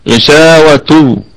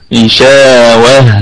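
First: The word ends with a t sound. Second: The word ends with an h sound. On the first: The reciter continues into the next word. "لكن في الوصلة هتكون تاء" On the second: The reciter stops on this word. "ونقف على هذه التاء التأنيث بالهاء"

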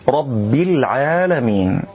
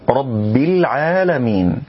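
Both takes have the same delivery.

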